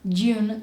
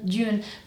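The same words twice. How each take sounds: First: The J sound is weak and soft. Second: The J sound is strong and tense. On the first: The speaker calls it wrong. "So not June" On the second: The speaker calls it right. "I need the sound to be a little stronger"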